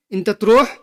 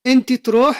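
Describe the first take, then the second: First: "इंत" ending in a short "a", inta, before त्रोह; masculine form इंत. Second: "इंत" ending in "i", inti, pitched higher; feminine form इंति. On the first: Teacher shows how to address a man, "इंत" pronounced inta. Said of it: "आदमी को बोलोगे". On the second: Teacher shows how to address a woman, "इंत" pronounced inti, higher. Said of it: "बस इतना सा फर्क है". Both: Shown as a demonstration.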